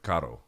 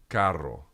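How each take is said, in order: First: The R is a single quick tongue flick. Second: The R is a long rolled trill. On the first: The speaker calls it wrong. "he kind of like flicks his tongue" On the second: The speaker calls it right. "It's two R's"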